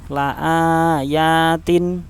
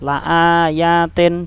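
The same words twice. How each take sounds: First: The final vowel sounds like 'i'. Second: The final vowel sounds like 'e'. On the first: The speaker calls it right. "tapi tin, ya, in bacanya" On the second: The speaker calls it wrong. "jangan seperti itu"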